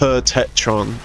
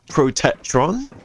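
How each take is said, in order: First: The syllables are run together and slurred. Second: Every syllable is said clearly and fully. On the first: The speaker calls it wrong. "you say it quickly" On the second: The speaker calls it right. "for once I said it"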